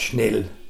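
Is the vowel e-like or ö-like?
e-like. The vowel is unrounded, like e. This is the standard form. "statt Schnell"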